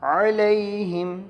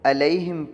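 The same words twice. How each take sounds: First: It begins with a throaty, pharyngeal ain sound. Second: It begins with a plain glottal stop. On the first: The speaker calls it right. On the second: The speaker calls it wrong.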